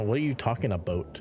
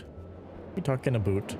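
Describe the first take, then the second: First: Canadian-style "about", rhyming with boat. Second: Mock Canadian "about", rhyming with boot. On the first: Shown as a demonstration. Teasing over Canadian "about", first take. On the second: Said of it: "You say about the very Canadian way".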